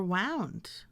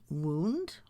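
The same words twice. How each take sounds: First: "wound" with ow, as in wrapped; wound as WOWND. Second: "wound" with oo, like an injury; wound as WOOND. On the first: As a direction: say "wound" to rhyme with "found". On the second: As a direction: say "wound" to rhyme with "crooned". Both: Shown as a demonstration. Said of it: "I could pronounce these words as".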